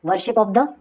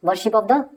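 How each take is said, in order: Both takes have the same delivery.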